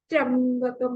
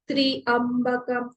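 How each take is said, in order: First: The word is run together with no space. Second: The word is split into tri and ambakam. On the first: The speaker calls it wrong. "थोड़ा सा गलत हो जाता है। फिर हम लोग त्र को बिल्कुल ही स्पेस नहीं दे रहे" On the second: The speaker calls it right. "त्रिअंबकम तो भी राइट है, वो हमने संधि विच्छेद कर दिया"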